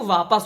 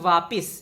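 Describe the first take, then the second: First: The second syllable has an 'a' vowel. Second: The second syllable has an 'i' vowel. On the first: The speaker calls it right. "वो वापस होता है" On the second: The speaker calls it wrong. "कई लोग बोलते हैं वापिस"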